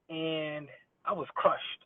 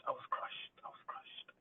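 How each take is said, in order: First: Slow, sinking sadness; a mock-sad slow sigh. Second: Softer then whispered, crushed; mock heartbreak fading into a whisper. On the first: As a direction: let it drag, heartbroken. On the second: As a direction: let it die away to a breath.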